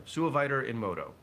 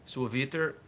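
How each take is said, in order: First: "Suaviter" said "soo-uh-VY-ter", louder and higher; "Suaviter" with a long "eye" in the third syllable; corrected Latin pronunciation. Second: Latin read with a French accent, raised and louder; French-tinged attempt at Latin, ending on a rise; unintended French accent. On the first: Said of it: "oh, there we go". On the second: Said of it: "like, a French accent". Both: Real, not acted.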